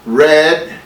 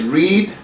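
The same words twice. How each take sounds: First: The vowel sounds like the word 'red'. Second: The vowel does not sound like 'red'. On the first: It is the past tense. "suena como eh, algo así como rojo, también como red" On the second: It is the present tense. "en presente es read"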